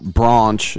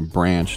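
First: The word is said with a non-American accent. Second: The word is said with an American accent. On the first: "Don't know why I said it that way" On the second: "as we say in America"

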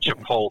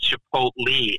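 First: The word is said with an altered, nonstandard pronunciation. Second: The word is said with its standard pronunciation. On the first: The speaker calls it wrong. "and not Chipotle" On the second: The speaker calls it right. "we do know it's Chipotle"

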